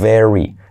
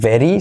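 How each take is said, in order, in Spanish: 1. La r va seguida de un sonido tipo u. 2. La r no tiene un sonido tipo u después. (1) "sino very. La U después de la R" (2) "no es very"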